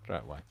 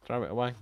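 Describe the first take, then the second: First: "Throw it away" said low and barely audible; quiet reply. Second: Said in the usual way. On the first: Acted. The plate answering its owner's question in a tiny low murmur. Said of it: "Didn't hear you". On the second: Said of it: "You're right, I'll throw it away".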